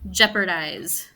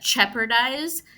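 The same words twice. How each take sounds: First: It starts with a voiced J sound. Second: It starts with a voiceless CH sound. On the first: The speaker calls it right. "watch the sh" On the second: The speaker calls it wrong. "if you say it quickly, you have that ch"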